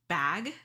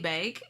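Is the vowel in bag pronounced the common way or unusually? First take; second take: common way; unusually. First: The vowel is said in the common way. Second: The vowel is said in an unusual, personal way. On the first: "instead of bag" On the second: "I pronounce things interestingly sometimes with my vowels. Like I say bag"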